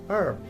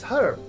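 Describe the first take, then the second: First: The word starts with a vowel, no h. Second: The word starts with an audible h sound. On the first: The speaker calls it right. "It is pronounced as herb" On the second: The speaker calls it wrong. "it is not pronounced as herb"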